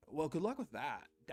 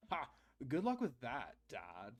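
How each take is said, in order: First: Laid-back surfer voice; surfer dude. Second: Put-on bored teen sneering at dad; apathetic teen. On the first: Shown as a demonstration. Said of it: "he just sounds like a, like a surfer". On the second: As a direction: toss it off like a sulky teen. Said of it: "make him sound like an apathetic teen".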